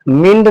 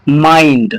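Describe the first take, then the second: First: The vowel is a short 'i'. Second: The vowel sounds like 'eye'. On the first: The speaker calls it wrong. "मिंड पढ़ोगे तो गलत हो जाएगा" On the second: The speaker calls it right. "आई की तरह उच्चारण करेंगे तो इस वर्ड को हम पढ़ेंगे माइंड"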